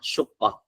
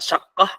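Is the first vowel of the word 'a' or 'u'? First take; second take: u; a. First: The first vowel is a 'u' sound. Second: The first vowel is an 'a' sound. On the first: "Shinnya di dhammah" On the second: "bisa dibaca dengan syaqqah"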